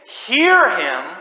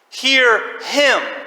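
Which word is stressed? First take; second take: hear; him. First: The stress is on "hear". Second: The stress is on "him".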